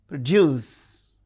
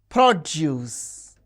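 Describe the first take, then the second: First: The stress is on the second syllable. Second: The stress is on the first syllable. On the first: The word is used as a verb. "when they function as verbs, the stress is on the second syllable" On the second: The word is used as a noun or adjective. "the stress is on the first syllable"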